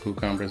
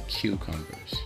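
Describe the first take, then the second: First: It is said in a standard accent. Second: It is said in a Southern accent.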